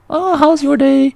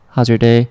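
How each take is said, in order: First: The greeting sounds bubbly and high-energy. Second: The greeting sounds laid-back and low-key.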